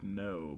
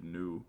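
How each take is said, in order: First: Said in the usual way. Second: "new" for "no", imitating her vowel; Ohio pronunciation. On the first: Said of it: "she said the word no, but pronounced it". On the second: Boyfriend mimicking his girlfriend's slip, Ohio-style "new". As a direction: say "new" with a fronted oo-like vowel in place of "no". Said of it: "but pronounced it new".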